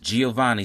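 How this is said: The name is said with an American English pronunciation. "as we say in the American English language"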